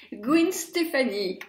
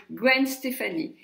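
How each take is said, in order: First: American pronunciation. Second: Said in the usual way. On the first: Retold or imitated. Vlogger imitating how Americans say the name, American accent. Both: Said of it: "comme vont faire les Américaines".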